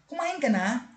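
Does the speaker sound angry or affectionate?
angry. It is said in an angry, harsh tone. The speaker seems annoyed with the listener. The speaker calls it wrong. "parang may galit"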